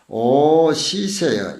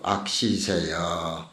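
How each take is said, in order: First: The first syllable is pronounced o. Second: The first syllable is pronounced ak. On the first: The character is read as meaning to hate. The speaker calls it right. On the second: The character is read as meaning evil. The speaker calls it wrong.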